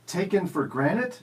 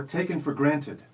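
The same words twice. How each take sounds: First: "granted" said like "granite", no middle T. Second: "granted" as GRAN-tid, with the T; T sounded in granted. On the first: Quiz host offering first choice, "granted" as granite. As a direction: drop the t so "granted" becomes GRAN-it. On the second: Quiz host offering second choice, "granted" with its T. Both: Shown as a demonstration. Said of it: "Is it".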